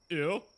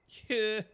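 First: The word begins without any H sound. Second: The word begins with an audible H sound. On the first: "or you don't? ... Or just" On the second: "Do you pronounce the H"

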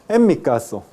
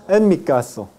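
No difference in how they are said.

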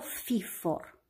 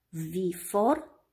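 First: The word begins with a voiceless F sound. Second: The word begins with a voiced V sound. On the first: The speaker calls it wrong. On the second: The speaker calls it right.

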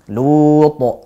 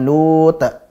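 First: The final echo is thick and heavy. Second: The final echo is thin and light. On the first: The speaker calls it right. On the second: The speaker calls it wrong.

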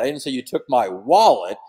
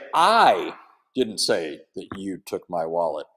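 First: The stress is on the word wallet. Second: The stress is on the word I.

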